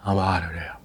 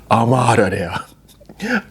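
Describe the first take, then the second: First: Softer, low-key resolve; quiet aside. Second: Slow breathy whisper. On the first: First take of her exit line: quiet and flat. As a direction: drop the voice and mean it. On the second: Second take of her exit line: slow secret whisper. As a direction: whisper it like sneaking out. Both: Acted. Deciding to leave spouse.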